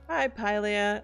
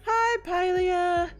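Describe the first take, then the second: First: It is said in the speaker's normal voice. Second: It is said in a put-on impression voice.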